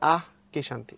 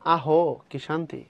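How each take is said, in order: First: The first word ends on a bare 'h' consonant. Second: The first word ends with an added 'o' vowel. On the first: The speaker calls it right. "দিয়ে পড়তে হবে আহ কি শান্তি" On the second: The speaker calls it wrong. "হসন্ত না দাও, তাহলে তুমি পড়বা আহো কি শান্তি"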